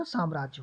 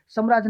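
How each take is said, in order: First: साम्राज्य with long aa, "saam-raajya", lower and softer; correct pronunciation. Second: साम्राज्य with a short first a, "sum-raajya"; wrong pronunciation. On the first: Teacher giving the right form, correctly pronounced. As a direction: open out the first aa in साम्राज्य. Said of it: "होता है". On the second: Teacher rejecting the wrong form, mispronounced. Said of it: "नहीं होता". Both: Shown as a demonstration.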